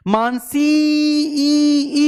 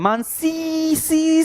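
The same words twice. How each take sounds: First: Mansi ई with the ई held long, high and loud; drawn-out call. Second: Mansi सी with the सी syllable dragged out high; wrong stretch. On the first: Teacher calling a student's name to show vowel lengthening, stretched high call. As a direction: call out to Mansi, dragging the final ई. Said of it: "ई को खींच रहे हैं". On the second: Teacher showing the incorrect way to call a name, a stretched सी. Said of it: "सी नहीं करते". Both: Shown as a demonstration.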